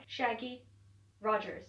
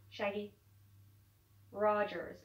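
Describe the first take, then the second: First: Slipping into an American accent. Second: Said in the usual way. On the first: Shown as a demonstration. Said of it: "trying to flip into an American accent". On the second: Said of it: "I can't do it".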